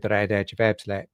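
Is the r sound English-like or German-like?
German-like. The r is an older Dutch r. The speaker is from the Midwest. "the Midwestern and the older Dutch too, uh, Dutch R"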